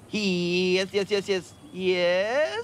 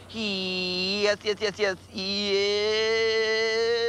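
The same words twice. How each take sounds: First: It rises at the end like a question. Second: It falls at the end like a statement.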